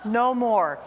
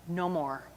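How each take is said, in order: First: Said in the usual way. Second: Quiet vow. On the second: Retold or imitated. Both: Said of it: "and I said".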